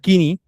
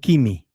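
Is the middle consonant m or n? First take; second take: n; m. First: The middle consonant is an n sound. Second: The middle consonant is an m sound. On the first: The speaker calls it right. "se pronuncia kini, kini con N" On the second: The speaker calls it wrong. "no kimi"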